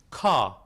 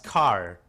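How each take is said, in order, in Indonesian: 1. Bunyi r di akhir kata dihilangkan. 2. Bunyi r di akhir kata terdengar jelas. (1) "mereka menggunakan standar British" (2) "kalau American English ... Jadi jelas"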